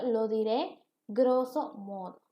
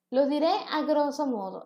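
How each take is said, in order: First: Slow, deliberate reading of "lo diré grosso modo" without the preposition; slow, careful correct form. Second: Said in the usual way. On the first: Shown as a demonstration. Teacher models the correct phrase for students, slow and deliberate. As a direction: spell out the right version slowly and clearly. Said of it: "Debería de ser lo correcto". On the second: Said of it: "Esta es una forma incorrecta".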